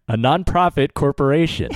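It sounds confident, said with conviction.

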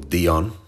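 The name is said with a French accent.

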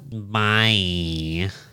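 It is said in a nasal voice.

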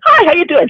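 The greeting is said with heavy, exaggerated inflection. "She like put the inflection into it"

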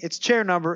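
The phrase breaks off abruptly, left unfinished. The sentence is interrupted. The speaker calls it right. "and cut off"

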